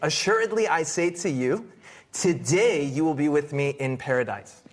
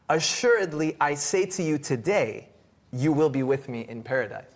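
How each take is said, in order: First: The pause comes just before 'today'. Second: The pause comes just after 'today'.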